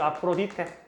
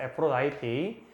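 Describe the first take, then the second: First: The name ends in "dee-teh" with four even syllables. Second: The name has an "eye" vowel and ends in "tee". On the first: This is the familiar local form of the name. "우리가 알고 있는 그 아프로디테" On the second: This is how the name is actually pronounced in English. "발음을 할 때는 ... 아프로다이티라고 말합니다"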